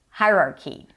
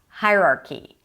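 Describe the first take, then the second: No difference in how they are said.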